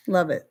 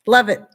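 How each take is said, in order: First: Said in the usual way. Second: Laughing it out, a bit louder; laughing delight. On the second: Real, not acted. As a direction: gush through a laugh. Laughing about complimenting shoes.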